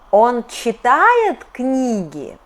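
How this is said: The pitch rises sharply, then falls at the end. It asks a yes-no question. "in question, intonation goes up and down here"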